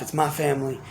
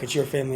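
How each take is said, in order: First: "my" leaned on, the rest softer; stress on my. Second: "your" leaned on, the rest softer; stress on your. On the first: Speaker to viewer, stressing "my" in "my family". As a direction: hit "my" in "It's my family". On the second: Speaker to viewer, stressing "your" in "your family". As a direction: hit "your" in "It's your family". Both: Shown as a demonstration. Contrasting my life with yours.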